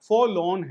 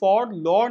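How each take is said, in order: First: Both r sounds in the word are silent. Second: Both r sounds in the word are pronounced. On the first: The speaker calls it right. "आर silent है दोनों के दोनों" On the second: The speaker calls it wrong. "ये फॉर लॉर्न नहीं है"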